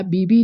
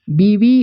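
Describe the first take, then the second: First: बीबी said with b twice; बीबी with b instead of v; wrong form. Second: बीवी with a v in the middle; बीवी spoken biwi, not bibi; correct form. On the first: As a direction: mispronounce it as bibi. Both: Shown as a demonstration. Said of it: "बीबी नहीं".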